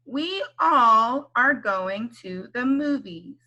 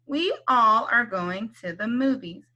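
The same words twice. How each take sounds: First: Slow, even "We all are going to the movies."; slow model read. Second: Said in the usual way. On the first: Shown as a demonstration. Teacher models a sentence slowly first. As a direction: read it slowly for them to follow. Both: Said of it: "Can you say this word all?".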